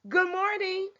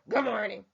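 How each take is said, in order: First: It is said warmly and with excitement. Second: It is said in a flat, grumpy way. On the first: The greeting is sincerely meant. The speaker calls it right. "you genuinely mean it. It's not fake. ... you really should sound excited" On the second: The speaker is in a bad mood. The speaker calls it wrong.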